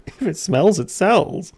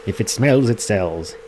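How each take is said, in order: First: Mocking echo. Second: Folksy saying. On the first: Gamer echoing Willy's odd motto, mock incredulous and high. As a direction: repeat the saying much higher, incredulous. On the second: Acted. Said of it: "what me old Peppy used to say".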